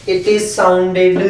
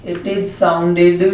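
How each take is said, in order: The two takes are said the same way.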